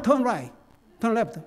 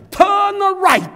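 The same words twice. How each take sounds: First: Quicker, understated American "Turn right"; American accent. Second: Loud, high British GPS voice, crisp "Turn right"; British accent. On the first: Preacher showing how Americans give directions, American accent. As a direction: imitate everyday American pronunciation, unexaggerated. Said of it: "미국 사람 발음은". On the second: Old GPS giving the driver directions, British accent. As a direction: imitate a British satnav, loud and exaggerated. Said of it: "영국 액센트한데". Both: Retold or imitated.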